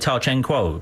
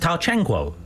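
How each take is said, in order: First: The name is said with flat English intonation. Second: The name is said with Chinese tonal inflections. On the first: The speaker calls it wrong. "British people say Ta Changquo" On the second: The speaker calls it right. "It's Ta Changquo"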